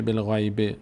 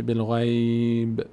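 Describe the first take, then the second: First: "بالغیب" with final -bi sounded; non-stop ending. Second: Slow "بالغیب", long ghayy closing on b; stopped ending. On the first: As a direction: end بالغیب on a short i after b. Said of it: "دیگه نمیشه". («بالغیب» با کسرهٔ آخر) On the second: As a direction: hold the ay, stop dead on ب in بالغیب. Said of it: "خواست به ایسته وقف بکنه". («بالغیب» کشیده با ب ساکن) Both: Shown as a demonstration.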